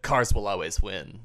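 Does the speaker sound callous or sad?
callous. It is said in a callous, unsympathetic tone. The victim deserved what happened. "Guy fucking deserved it"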